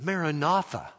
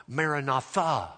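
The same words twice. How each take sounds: First: "Maranatha" with NA stressed, final syllable light; stress before last syllable. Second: "Maranatha" with a stressed final THA; stress on last syllable. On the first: Preacher giving the prayer form of "Maranatha", stressed mara-NA-tha. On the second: Preacher giving the announcement form of "Maranatha", stressed marana-THA. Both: Shown as a demonstration. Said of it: "you put the accent on the last syllable".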